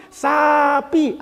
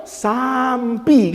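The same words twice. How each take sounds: First: High "sapi", two long syllables without m; teacher's model. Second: "sampi" dragged out with an m before the p; pupil's slow failed attempt. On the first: Retold or imitated. Teacher drilling a pupil, "sapi" slowly and without the m. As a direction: prompt the pupil with a stretched "sa-pi". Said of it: "kata gurunya". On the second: Pupil struggling to copy teacher, very slow "sampi" with stray m. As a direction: labour through it slowly and still land on "sampi". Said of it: "Dia dari kecil nyebut sapi itu sampi".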